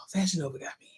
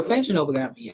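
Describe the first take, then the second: First: Soft whisper, like a guilty secret; hushed confession whisper; whispered aside. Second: Said in the usual way. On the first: Shown as a demonstration. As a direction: whisper "Fashion Nova got me." to the viewers.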